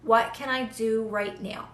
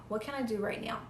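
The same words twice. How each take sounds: First: Said in the usual way. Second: Much softer, almost under the breath; a hushed inner question; very quiet. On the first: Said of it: "just listen to your body and say". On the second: Shown as a demonstration. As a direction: ask it softly, inward and still. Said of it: "get so still".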